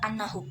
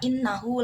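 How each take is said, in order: First: The word begins with an a vowel. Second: The word begins with an i vowel. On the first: "membacanya annahu dengan fathah" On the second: "membacanya kasroh"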